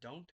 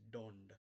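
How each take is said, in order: First: It is said in a plain accent. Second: It is said in an Indian-style accent. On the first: "instead of don't" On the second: "it's don't"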